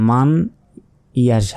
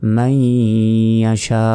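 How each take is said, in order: First: The n is pronounced clearly before the y. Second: The n merges into the following y sound. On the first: The speaker calls it wrong. "আমি কিন্তু এখানে বলিনি যে মান ইয়াশা" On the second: The speaker calls it right. "মাইয়াশা উ"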